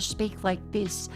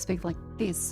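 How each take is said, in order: First: It is spoken slowly with careful, clear articulation. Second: It is spoken at normal speed, barely moving the mouth. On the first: It sounds like a comedy bit. "slow down to speak like this" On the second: It is everyday Australian speech. "I usually speak like this"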